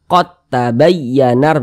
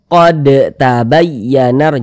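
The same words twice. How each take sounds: First: The d merges into the following t. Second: The d is pronounced separately before the t. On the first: The speaker calls it right. "huruf dalnya ini dia langsung masuk ke huruf ta" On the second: The speaker calls it wrong. "jangan jangan dibaca"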